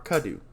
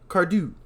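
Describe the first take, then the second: First: The name is said without an R sound. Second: The name is said with an R sound. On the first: The speaker calls it right. "Or Cadu" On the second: The speaker calls it wrong. "I put an R there. It's not there"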